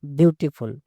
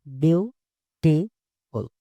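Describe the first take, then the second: First: Said in the usual way. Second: "Beautiful" very slowly as beau, ti, ful; syllable by syllable. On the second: Shown as a demonstration. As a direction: pause between the three syllables of "Beautiful". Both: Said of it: "किसी word को धीरे-धीरे बोलना है".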